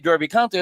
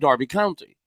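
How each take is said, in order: First: Derby is said with an American vowel, like 'dur'. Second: Derby is said with a British vowel, like 'dar'. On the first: The speaker calls it wrong. "I would never say Derby County" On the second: The speaker calls it right. "I'd say Derby County"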